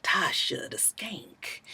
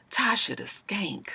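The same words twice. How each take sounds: First: Slow, soft whisper of "Tasha the Skank"; menacing whisper. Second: Soft whispered "Tasha the Skank" repeated; menacing whisper. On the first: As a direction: breathe "Tasha the Skank" slowly, like a threat. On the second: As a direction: whisper "Tasha the Skank" softly, a little slow. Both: Retold or imitated.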